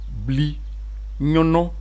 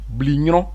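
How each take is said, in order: First: The word is said slowly, syllable by syllable. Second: The word is said quickly, as one unit. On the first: "je vais le dire lentement" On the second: "avec la rapidité des obé"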